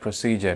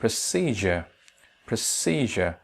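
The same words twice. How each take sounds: First: "procedure" said flat with even syllables; "procedure" run through evenly, middle not stressed; flattened, no stress. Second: "procedure" with SEE stressed and drawn out; "procedure" modelled clearly, weight on the second syllable. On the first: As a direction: say "procedure" without punching any syllable. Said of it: "Flatten, like procedure". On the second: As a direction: lean on the middle of "procedure": pro-SEE-juh. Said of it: "I need to stress the second syllable". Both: Shown as a demonstration.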